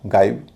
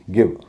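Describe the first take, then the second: First: The vowel is an 'eye' sound. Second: The vowel is a short 'i' sound. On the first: The speaker calls it wrong. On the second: The speaker calls it right.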